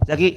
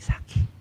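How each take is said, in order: First: The name is called out loudly. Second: The name is said in a whisper. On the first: This is a real call to someone. The speaker calls it right. "Namanya panggilan itu harus keras" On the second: This is not a call but a whisper. The speaker calls it wrong. "Gak mungkin kan manggil bisik-bisik"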